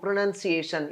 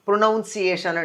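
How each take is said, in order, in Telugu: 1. రెండో అక్షరం 'nun' లా వినిపిస్తుంది. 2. రెండో అక్షరం 'noun' లా వినిపిస్తుంది.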